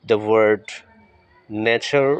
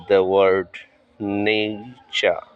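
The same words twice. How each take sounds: First: Nature as NAY-cha, no final r; correct nature. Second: Nature as NAY-cher, the usual local way; common nature. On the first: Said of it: "উচ্চারণটা হবে নেইচা". (নেইচা, শেষে আর ছাড়া) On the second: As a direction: nature said the familiar way. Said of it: "ইংরেজি হলো শব্দটা নেচার বলে থাকি আমরা". (প্রচলিত উচ্চারণে নেচার) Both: Shown as a demonstration.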